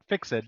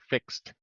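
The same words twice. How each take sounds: First: The word ends without a clear t sound. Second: The word ends with a clear t sound. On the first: The speaker calls it wrong. "Not fixed" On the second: The speaker calls it right. "Exactly. Fixed with a T at the end"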